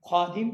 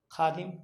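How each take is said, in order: First: "خادم" with a heavy, rounded kh; thick Arabic kha. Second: Said in the usual way. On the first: Shown as a demonstration. Teacher shows what Urdu avoids, thick kh. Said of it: "موٹا تلفظ نہیں کرتے ہیں". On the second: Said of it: "باریک تلفظ کرتے ہیں".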